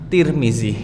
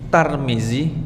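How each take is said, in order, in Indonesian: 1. Suku kata pertama dibaca tir. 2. Suku kata pertama dibaca tar.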